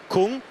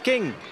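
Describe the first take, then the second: First: The vowel sounds like the u in Kung. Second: The vowel sounds like the i in King. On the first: This is how English speakers tend to read it. The speaker calls it wrong. "as English speakers, you are drawn to saying Kung" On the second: This is how the rider says it himself. The speaker calls it right. "it's pronounced King"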